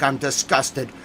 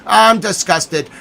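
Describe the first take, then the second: First: Said in the usual way. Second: Slow, drawn-out I'm disgusted; theatrical disgust; mock disgust. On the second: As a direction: lean into hammed-up revulsion. Mock disgust, slow second take.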